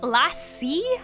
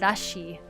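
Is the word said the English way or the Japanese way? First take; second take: English; Japanese. First: It is said the English way. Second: It is said the Japanese way. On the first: "Is it lassi? Maybe I'm pronouncing it wrong" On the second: "in Japanese they always call it rashi"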